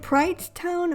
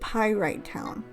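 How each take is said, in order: First: The name's first part is one syllable. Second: The name's first part is two syllables. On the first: "I've always called it Prite Town" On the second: "I'm feeling like it's called Pyrite Town"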